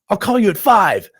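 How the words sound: It is said in a very excited tone. The speaker is eager about the call.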